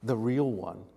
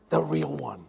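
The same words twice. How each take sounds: First: Said in the usual way. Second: "The real one" punched higher, then falling; emphatic repeat. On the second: Real, not acted. Preacher insisting it is the original fresco, emphatic. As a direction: hit "The real one" harder to drive it home.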